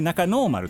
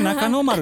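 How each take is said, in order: First: The vowel after no is held long. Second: The vowel after no is kept short. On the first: The speaker calls it right. "伸ばして読んでほしい" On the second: The speaker calls it wrong. "決して中野丸ではなくて"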